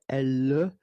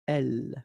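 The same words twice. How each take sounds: First: A vowel sound is added after the final L. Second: The word ends cleanly on the L sound. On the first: The speaker calls it wrong. "You don't say" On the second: The speaker calls it right. "but then you say"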